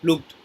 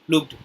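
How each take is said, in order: No difference in how they are said.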